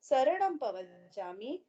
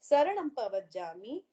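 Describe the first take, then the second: No difference in how they are said.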